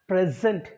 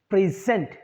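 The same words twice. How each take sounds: First: The stress is on the first syllable. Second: The stress is on the second syllable. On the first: It is used as a noun. "since it's a noun, I said present" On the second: It is used as a verb. "we'll have to stress the second syllable, zent. So that's why I say present"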